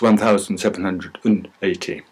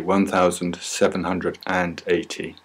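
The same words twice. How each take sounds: First: The word 'and' is reduced to 'n'. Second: The word 'and' is pronounced in full. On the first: This is how the number sounds at normal speed. "when we speak at normal speed, the and is just an un" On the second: This is the written form of the number. "in the books, it may say"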